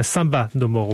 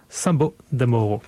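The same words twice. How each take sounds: First: "Samba" said with a final a, "Samba de Moro"; "Samba" fixed after the slip; corrected title. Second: "Sambo" said with a closing o, "Sambo de Moro"; "Sambo" mis-said, then corrected; slip of the tongue. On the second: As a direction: mispronounce it as "Sambo de Moro" by mistake. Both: Real, not acted.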